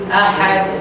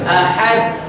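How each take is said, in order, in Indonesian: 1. Bunyi d di akhir memantul ringan dengan sendirinya. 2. Bunyi d di akhir dipantulkan dengan sengaja, dipaksakan. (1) "dia melantun sendiri" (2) "bukan ahad. Ah, salah. Kita lantun dia"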